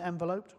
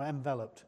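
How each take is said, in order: First: "enveloped" with a long o, en-vuh-LOPED; long-o pronunciation. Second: "enveloped" as en-VEL-upt; short stressed e in "enveloped", reduced last vowel; short-e pronunciation. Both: Shown as a demonstration. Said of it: "Is it enveloped or enveloped?".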